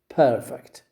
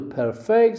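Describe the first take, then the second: First: The stress is on the first syllable. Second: The stress is on the second syllable. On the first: Something is very good and flawless. "you stress the first syllable" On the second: To make something flawless. "you stress the second syllable"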